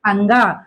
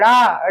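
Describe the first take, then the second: First: It is said as a nasal 'anga' sound. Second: It is said as a flapped 'ra' sound. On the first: The speaker calls it right. "ये है अंगा" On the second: The speaker calls it wrong. "बच्चे उसको कैसे पढ़ते हैं? ड़ा पढ़ते हैं, जबकि ये ड़ा नहीं है"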